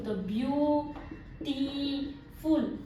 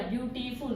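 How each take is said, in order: First: beautiful slowly split as ब्यू-टी-फुल; broken into syllables. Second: Said in the usual way. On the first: Shown as a demonstration. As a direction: leave gaps inside beautiful after each syllable. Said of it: "ये दो या तीन में आपका syllable टूटा". (Beautiful को तोड़-तोड़कर धीरे बोलना) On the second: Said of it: "जैसे ये एग्जांपल दिया".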